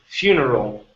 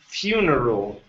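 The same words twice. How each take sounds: The two takes are said the same way.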